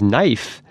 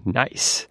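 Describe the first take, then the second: First: Knife, F ending where S is meant; accented knife for nice. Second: Nice, with a clear S ending; decoded nice. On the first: Host explaining accent decoding: knife for nice. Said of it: "when he says". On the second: Host explaining accent decoding: the real word nice. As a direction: say nice with a crisp final S. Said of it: "he's actually saying". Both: Shown as a demonstration.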